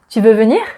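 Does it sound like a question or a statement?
question. It is said with a questioning intonation. It asks whether the listener wants to come. "the questions would be"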